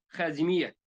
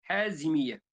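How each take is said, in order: First: The name begins with a raspy throat kh sound. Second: The name begins with a breathy h sound. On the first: "به حرف خا گفته" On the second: "حازمیه به ها گفته"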